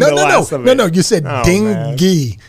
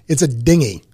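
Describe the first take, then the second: First: The 'ng-y' ending of the word is emphasized. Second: The word begins with a sound like 'ding'. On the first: This is how the other person said it. The speaker calls it wrong. "like an emphasis on the ng-y" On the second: This is how the speaker thinks it should be said. The speaker calls it right. "Like a ding"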